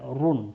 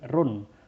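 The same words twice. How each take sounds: First: The r sound is heavy and thick. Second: The r sound is light and thin. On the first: The speaker calls it wrong. "tidak run" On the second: The speaker calls it right. "ini tipis ya ... tapi run"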